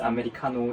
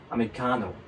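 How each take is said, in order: First: It is said flatly, with Korean pronunciation. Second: It is said with American intonation and stress. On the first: The speaker calls it wrong. "이렇게 얘기하면 못 알아들어요" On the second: The speaker calls it right. "이렇게 좀 억양이나 이런 부분들을 신경 쓰셔야 돼요"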